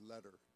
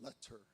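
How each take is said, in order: First: The t is a quick flap. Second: The t is a clear, full t.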